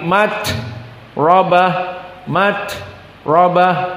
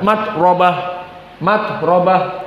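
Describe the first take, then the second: First: The t is released with audible breath. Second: The t runs straight on without breath. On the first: The speaker calls it right. "tetapi mat robah mat robah" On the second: The speaker calls it wrong. "jangan dilangsungkan"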